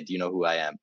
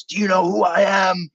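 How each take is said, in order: First: Said in the usual way. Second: Angry shout. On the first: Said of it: "If anyone could say". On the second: Retold or imitated. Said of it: "slams this guy against the wall and says".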